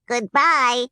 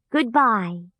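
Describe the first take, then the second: First: Higher, louder chorus of little Munchkins; Munchkins' goodbye. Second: Said in the usual way. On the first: Acted. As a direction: wave off cheerfully as a group. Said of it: "said the three little Munchkins".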